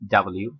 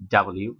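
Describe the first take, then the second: The two takes are said the same way.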